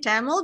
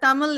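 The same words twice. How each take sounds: First: The word is pronounced with an English accent. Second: The word is pronounced with a native Tamil accent. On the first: "in the English way, we can say Tamil" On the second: "Tamil is actually the more authentic way"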